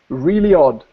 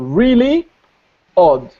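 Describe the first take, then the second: First: A y sound joins the two words. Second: The two words are said apart, unlinked. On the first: "becomes really odd" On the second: "say it separately"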